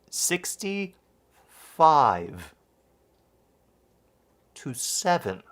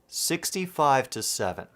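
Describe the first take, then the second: First: It is said slowly with each word clearly articulated. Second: It is said quickly and casually.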